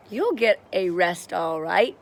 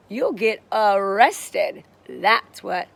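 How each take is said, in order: First: Mild storytelling shout, louder. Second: "arrested" stretched out slowly and loudly; punchline stress. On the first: Mister Dart rushes in on the thieves, moderately loud shout. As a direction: call it out firmly without screaming. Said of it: "shouted Mister Dart". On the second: Mister Dart makes his joke to the thieves, "arrested" loud and slow. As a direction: hit "arrested" hard, drawing out its syllables. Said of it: "Did you guys get that joke?". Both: A narrator's reading.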